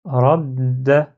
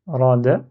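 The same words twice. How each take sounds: First: RADDA with the d held before the final a; shadda, doubled d. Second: "ra, da" as two open syllables, single short d; without shadda. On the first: Teacher showing what shadda gives, lengthened d. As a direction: close on the d in "radda", then release. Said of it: "j'ai shadda, du coup, ça donne". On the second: Teacher reading the word before adding shadda, simple d. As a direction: say ra then da, no hold on the d. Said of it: "Donc, ra, da, ra, da". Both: Shown as a demonstration.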